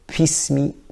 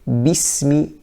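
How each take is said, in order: First: The first sound has a puff of air, like P. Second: The first sound is a plain B without air. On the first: The speaker calls it wrong. "having a bit of wind come out with the ba... close to the English P" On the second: The speaker calls it right. "it's correct to say bismi"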